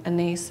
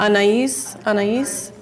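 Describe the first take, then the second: First: Anais said "uh-NAYS", two syllables; tentative name pronunciation. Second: Anais said "ah-nah-EES", three syllables; corrected name pronunciation. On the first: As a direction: say Anais as "uh-NAYS", rhyming with "base". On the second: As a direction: try out Anais as "ah-nah-EES", ending on a rise. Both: Shown as a demonstration. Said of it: "is that how you pronounce her name".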